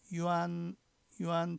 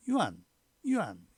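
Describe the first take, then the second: First: 유안 held long on an even, level tone. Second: 유안 short and loud, pitch dropping sharply; abrupt falling-tone 유안, cut short; entering tone. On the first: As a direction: say 유안 drawn out, pitch kept steady. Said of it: "평성으로 발음된데". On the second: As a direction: punch out 유안 with a quick steep fall. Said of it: "입성으로 발음됐죠". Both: Shown as a demonstration.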